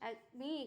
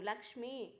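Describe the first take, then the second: First: It starts with a vowel and lacks the sh. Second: It starts with L and includes the sh. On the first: The speaker calls it wrong. "అక్మి కాదు" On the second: The speaker calls it right.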